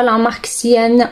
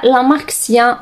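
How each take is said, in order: First: سيان with a closing n; brand name variant. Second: سيان ending in an open "ya"; brand name variant. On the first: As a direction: say سيان as "syan", ending on n. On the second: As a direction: say سيان as "sya", no final n. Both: Shown as a demonstration. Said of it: "كيما تحبوا تسموها".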